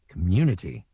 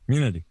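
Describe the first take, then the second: First: "community" with every syllable sounded; Canadian pronunciation. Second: "community" slurred quickly into "c'munidy"; American pronunciation. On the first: Voice actor showing how Canada says it, careful "community". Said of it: "when you're in Canada, you have to say". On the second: Voice actor showing how America says it, slurred "community". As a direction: barely move the mouth on "community", American style. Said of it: "America, you say community". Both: Shown as a demonstration.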